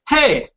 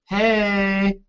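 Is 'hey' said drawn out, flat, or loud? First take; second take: loud; drawn out. First: It is said loud, like a yell. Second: It is said quietly and drawn out.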